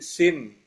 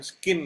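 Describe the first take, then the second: First: The word begins with a plain s sound. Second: The word begins with an sk sound. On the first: The speaker calls it right. "tapi sin" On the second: The speaker calls it wrong. "bukan skin bacanya"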